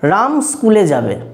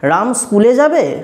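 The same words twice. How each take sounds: First: It is said in a plain, neutral voice. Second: It is said in a questioning, curved voice. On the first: It simply gives a piece of information. "এটা দেখো আমি সাধারণভাবে বললাম" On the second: It asks whether he will go or not. "গলার কণ্ঠস্বরটাকে অন্যভাবে করলাম"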